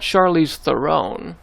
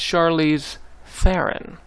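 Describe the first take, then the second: First: The surname does not rhyme with Sharon. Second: The surname rhymes with Sharon. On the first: The speaker calls it wrong. "It's not" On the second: The speaker calls it right. "It rhymes with uh, Sharon"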